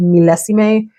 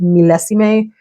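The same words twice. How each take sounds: First: The word is pronounced with Spanish-style sounds. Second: The word is pronounced with Spanish-style sounds.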